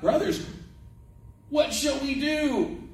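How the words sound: It is said in a terrified, urgent way. The people are afraid of what they have done. The speaker calls it right. "And you got to read it like that"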